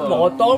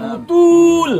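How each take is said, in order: First: Both vowels are 'o' sounds. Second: Both vowels are 'u' sounds. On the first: This is the form with five vowels. "Nyambat botol" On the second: This is the upriver Hulu dialect form. "Jadi kalau ada O jadi O jadi U"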